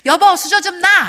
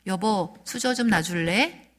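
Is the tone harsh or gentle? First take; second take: harsh; gentle. First: It is said in a harsh, commanding tone. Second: It is said in a gentle, asking tone.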